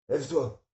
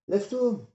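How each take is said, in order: First: Loud, raised command; challenge to get up. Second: Much higher, shouted command; fierce command. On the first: Son daring his fallen father to get up, loud. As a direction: dare him to stand up. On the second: Son yelling at his father to get up. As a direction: bark it down at him. Narrator challenges father again. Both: Acted.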